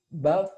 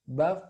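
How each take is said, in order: The two takes are said the same way.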